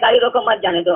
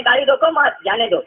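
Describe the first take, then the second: First: "गाड़ी रोको मत" as one phrase, then "जाने दो"; "मत" joined to "रोको". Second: "गाड़ी रोको" as the order, then "मत जाने दो"; break after "रोको". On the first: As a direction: run "मत" straight onto "रोको", meaning don't stop. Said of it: "आप ही ना बोल रहे हैं". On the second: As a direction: set "मत" with "जाने दो", meaning don't let it go. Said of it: "किस शब्द पर बोलने वाले का कौन सा एक्सेंट गया है". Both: Retold or imitated.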